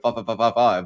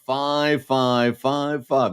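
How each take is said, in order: First: The fives are said quickly, run together. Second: The fives are said slowly, one by one. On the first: "I used to go" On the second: "I've got to say it slowly"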